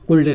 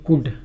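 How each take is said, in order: First: The word is said with an L sound. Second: The word is said with no L sound. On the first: The speaker calls it wrong. "कुल्ड नहीं" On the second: The speaker calls it right. "इसको बोलते हैं कुड"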